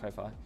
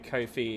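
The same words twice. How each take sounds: First: The name is not pronounced like coffee. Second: The name is pronounced like coffee. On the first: The speaker calls it wrong. "I always call it Ko-Fi" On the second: The speaker calls it right. "as in coffee"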